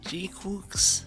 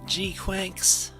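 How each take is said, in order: First: The second word rhymes with cooks. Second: The second word rhymes with quacks. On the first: "I always see it and think G Cooks though" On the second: "it's pronounced like Quacks, right?"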